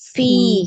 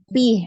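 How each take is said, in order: First: The word begins with an f sound. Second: The word begins with a p sound. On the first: The speaker calls it right. "itu diganti jadi F gitu" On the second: The speaker calls it wrong. "Umi pakai huruf P ya, huruf P kalau di Indonesia"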